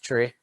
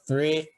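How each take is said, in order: First: The word starts with a plain 't' sound. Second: The word starts with a 'th' sound. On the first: The speaker calls it right. "commonly referred to as tree" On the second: The speaker calls it wrong. "you could mispronounce if you just pronounce them regularly"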